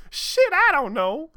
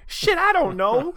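First: High, loud, slow squealed outburst; worked up. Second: High, loud, flustered outburst; worked up. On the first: Amy squealing her answer to Sonic, worked up. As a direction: stretch it out in a flustered squeal. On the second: Amy flustered over Sonic's question, worked up. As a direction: blurt it out all worked up. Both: Acted. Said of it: "still all worked up".

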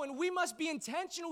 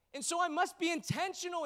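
First: We stretched and pitched up, rest even; stress on we. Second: I stretched and pitched up, rest even; stress on I. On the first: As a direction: lean on the word we, then let must be intentional fall. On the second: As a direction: lean on the word I, then let must be intentional fall. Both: Shown as a demonstration.

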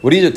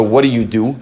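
First: Pointed question. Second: Casual small-talk question. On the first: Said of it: "Tam asks is not". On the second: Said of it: "There's two ways you can ask somebody". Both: Shown as a demonstration.

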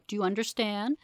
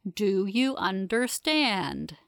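First: Said in the usual way. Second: Very slow, each word set apart; deliberate. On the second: A narrator's reading. Investigator repeating the question to the prisoner, slow and deliberate. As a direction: spell it out word by word, firmly.

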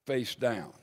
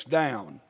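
First: Soft echo. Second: Said in the usual way. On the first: Retold or imitated. Preacher softly repeating the woman's shame, quietly. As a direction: repeat it much softer and lower.

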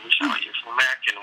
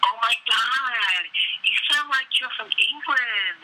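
First: Said in the usual way. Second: Very high, drawn-out American gushing; mock American accent. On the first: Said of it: "And you're like". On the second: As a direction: imitate an over-excited American, slowly. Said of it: "They always go".

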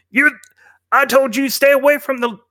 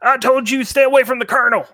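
First: High, tense bandit warning; a bandit warning someone off; bandit threat. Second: High, fast bandit warning; a bandit warning strangers away from the colonel; bandit threat. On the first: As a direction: snap a warning at the strangers. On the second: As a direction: fire the warning off quick and high. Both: Acted.

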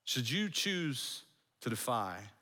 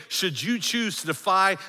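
First: Slow, soft, lower repetition; hushed warning. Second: High, emphatic proclamation; forceful warning. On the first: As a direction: let the threat sink in quietly. Warning repeated slowly for effect. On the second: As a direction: proclaim it as a threat to all watching. Preacher voicing Rome's public warning. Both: Acted.

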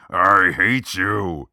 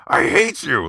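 First: Very slow, louder, manly I hate you; manly John Wayne. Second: Put-on higher, louder, boyish yell of I hate you; boyish voice crack. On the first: Retold or imitated. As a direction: drag out each word like a gruff cowboy hero. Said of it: "how would John Wayne on Fire say it". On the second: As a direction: crack like a teenager on the word hate. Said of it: "there is the boyish voice crack".

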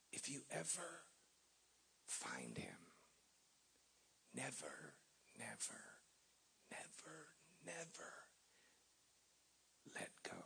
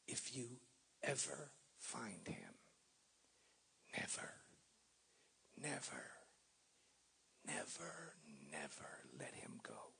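First: Near-whispered, each never fading softer; whispered plea. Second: Mild whispered plea, trailing off on each never; lightly voiced old man pleading in a whisper; hushed old man's plea. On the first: Retold or imitated. Preacher repeating the old man's words to the church, whispered. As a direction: breathe the words like a sacred charge. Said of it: "Those words are daunting". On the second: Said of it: "he said in a broken brogue".

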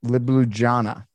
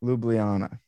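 First: "Ljubljana" slowly attempted as lih-bloo-ZHAH-na; tentative mispronunciation. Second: "Ljubljana" said as loo-blee-AH-na; corrected pronunciation. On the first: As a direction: say "Ljubljana" with a zh before the AH. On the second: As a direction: say "Ljubljana" with a y-glide before AH. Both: Shown as a demonstration. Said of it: "Yeah, pretty close".

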